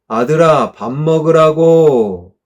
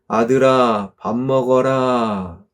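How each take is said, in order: First: The call is said louder. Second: The call is said at normal volume.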